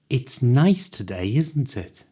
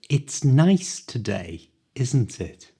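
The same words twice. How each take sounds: First: The sentence is spoken at full natural speed. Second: The sentence is spoken slowly and carefully. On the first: "at the speed native people speak" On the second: "the exact way I pronounce the words"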